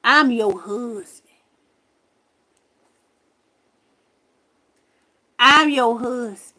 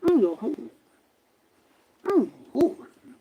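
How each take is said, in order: First: Slow, deliberate announcement, lightly imitated; quoted ghost. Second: Indistinct, smothered imitation; muffled ghost voice. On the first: Retelling what the ghost told her, slow lightly acted declaration. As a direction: spell it out slowly, twice. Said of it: "that mug told me". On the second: Imitating the ghost that said it was her husband, muffled. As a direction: blur the words as if heard through a wall. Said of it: "It sound muffled".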